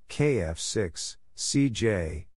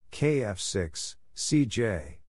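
Both takes have the same delivery.

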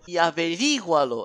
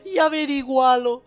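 First: Said in the usual way. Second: "averígualo" stressed on the wrong syllable, higher and louder; mock wrong stress. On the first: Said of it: "acento en la I". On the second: Shown as a demonstration. Gamer mocking the game's misplaced accent on "averígualo", high and loud. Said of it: "Averígualo, acento en la I".

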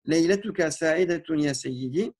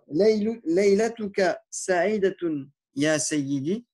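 First: Said in the usual way. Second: Drawn out, syllable by syllable; slow it down so learners catch each part; slow Arabic demo. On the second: Shown as a demonstration.

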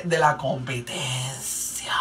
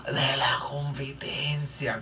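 First: Said in the usual way. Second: Slow, hushed gasp of mock horror; scandalized whisper. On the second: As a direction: whisper it like a shocking secret, drawn out. Repite susurrando, como escándalo. (susurro lento y escandalizado)

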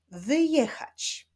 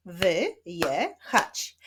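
First: Said in the usual way. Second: "wyjechać" slowly split as wy... je... chać; long pause after each syllable of "wyjechać". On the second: Shown as a demonstration. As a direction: clap out "wyjechać" in three separate beats. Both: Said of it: "Wyklaszczmy sylaby wyjechać".

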